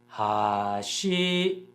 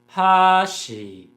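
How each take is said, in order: First: The pitch goes from low to high. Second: The pitch goes from high to low. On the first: It means bridge. "hashi has a low-high pattern" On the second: It means chopsticks. "hashi has a high-low pattern"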